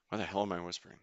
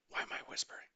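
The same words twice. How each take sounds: First: Said in the usual way. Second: A hushed, puzzled aside under the breath; whispering. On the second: Real, not acted. Streamer notices his own whisper while fishing, whispering. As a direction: still whispering, catching himself at it.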